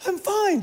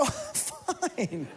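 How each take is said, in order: First: Much higher, bright 'I'm fine'; mock cheery denial. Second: Much softer, tight 'I'm fine'; strained denial. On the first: Husband to worried wife Jill on the plane, high and forced. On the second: Retold or imitated. Husband to worried wife Jill on the plane, quiet and strained. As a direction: squeeze out 'I'm fine' barely above a breath. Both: Panicking man insists he's fine.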